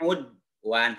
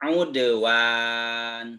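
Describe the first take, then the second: First: The d sound is held without release. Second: The d sound is bounced with a release. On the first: The speaker calls it wrong. "Tidak udwan. Tidak ditahan" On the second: The speaker calls it right. "Tapi dipantulkan"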